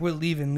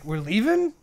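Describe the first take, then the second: First: "leaving" falls, stated as settled; firm statement. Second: "leaving" pitched up as a question; surprised question. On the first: Telling his friend they go now, "leaving" falling firmly. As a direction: answer with a falling, decided "leaving". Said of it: "And I'm like". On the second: Friend questions the sudden exit, "leaving" rising in surprise. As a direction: ask it with a higher, rising "leaving". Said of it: "Ryan's like". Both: Retold or imitated.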